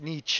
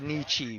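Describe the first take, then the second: First: The name is said with a German-style pronunciation. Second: The name is said with an Americanized pronunciation. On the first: The speaker calls it right. "but it's Nietzsche" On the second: The speaker calls it wrong. "that's the Americanized version"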